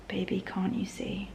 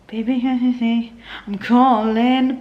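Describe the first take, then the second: First: Soft whispered words as if writing them down; whispered lyric. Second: Lightly sung lyric, slowing on calling; singing along. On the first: She whispers the lyric back while writing it down. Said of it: "I'd write down". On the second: She sings the lyric playing from the CD, stretched out slowly. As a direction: croon the lyric as the CD plays. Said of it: "And then play". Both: Retold or imitated.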